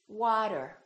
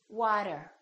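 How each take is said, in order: No difference in how they are said.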